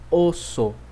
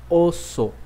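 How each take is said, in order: The two takes are said the same way.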